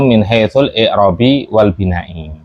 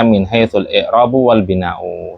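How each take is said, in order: First: The nouns end with an i vowel. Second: The nouns end with a u vowel. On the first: The phrase attaches to a single noun. "kalau dia perkata bisa masuk ke perkata yaitu isim" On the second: The phrase attaches to a whole clause. "Ada yang mengatakan itu susunan atau berupa jumlah"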